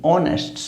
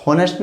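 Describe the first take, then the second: First: "ऑनेस्ट" beginning on a clean o vowel; corrected silent H. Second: "होनेस्ट" said with an h before the o; wrong H sounded. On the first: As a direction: drop the h in "ऑनेस्ट". ("ऑनेस्ट" बिना ह के) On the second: ("होनेस्ट" शुरू में ह के साथ) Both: Shown as a demonstration. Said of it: "होनेस्ट नहीं".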